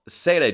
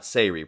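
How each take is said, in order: First: The word ends with a 'ray' sound. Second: The word ends with a 'ree' sound. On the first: The speaker calls it right. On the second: The speaker calls it wrong.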